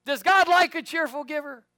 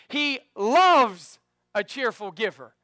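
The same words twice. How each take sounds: First: High, loud question with stress on God; teasing trick question. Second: Slow, loud with "loves" punched; stress on loves. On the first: Pastor testing the church with a loaded question. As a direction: bait the church with a wrong word. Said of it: "quizzing the congregation". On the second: Pastor prompting the church to answer with "loves". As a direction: land hard on "loves". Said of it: "What is he?". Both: Shown as a demonstration.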